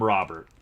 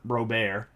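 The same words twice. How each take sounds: First: The name is said with English sounds. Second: The name is said with Spanish sounds. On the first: The speaker calls it wrong. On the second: The speaker calls it right. "Robert in Spanish"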